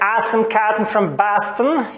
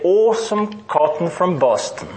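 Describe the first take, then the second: First: It is said in an American accent. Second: It is said in a British accent. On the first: "Instead of saying" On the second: "study British English phonetics and master it"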